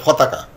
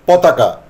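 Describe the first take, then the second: First: ফতাকা with an airy ph for p; mispronounced aspiration. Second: Said in the usual way. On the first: Shown as a demonstration. Teacher showing how many say potaka, aspirated ফতাকা. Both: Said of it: "অনেকে উচ্চারণ করে ফেললো".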